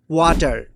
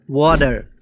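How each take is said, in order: First: ওয়াটার with a hard, flat t as waʈar; water, flat t. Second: ওয়াটার softened to wɔdar, the t flapped like a d; water, soft d. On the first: Teacher showing one pronunciation, ওয়াটার with a hard t. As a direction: say ওয়াটার with a crisp t and a full r. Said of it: "কেউ বলতেছে". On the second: Teacher showing the other pronunciation, ওয়াটার with a soft d. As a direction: round the vowel and flap the t in ওয়াটার. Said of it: "বা". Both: Shown as a demonstration.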